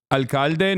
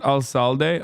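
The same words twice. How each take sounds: First: "Alcalde" with a hard k, al-KAL-de; Spanish alcalde. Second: "alcalde" with an s sound, al-SAL-day; English-style alcalde. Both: Shown as a demonstration. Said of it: "not alcalde?".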